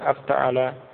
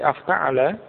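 First: The intonation stays flat throughout. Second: The intonation rises at the end. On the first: The speaker calls it wrong. "bukan sekedar afta'ala" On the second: The speaker calls it right. "diucapkan dengan intonasi atau ada dengan nada semacam itu"

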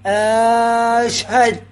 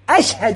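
First: The opening vowel is drawn out long. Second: The opening vowel is short and clipped. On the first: It turns into a question. The speaker calls it wrong. "مو أشهد، ها صارت استفهام" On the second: It is a plain statement of testimony. The speaker calls it right. "بالقطع، هي همزة قطع"

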